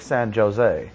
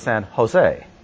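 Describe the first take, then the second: First: The J is said like an English j. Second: The J is not said like an English j. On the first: The speaker calls it wrong. "you don't say San Jose" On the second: The speaker calls it right. "J-O-S-E is San Jose"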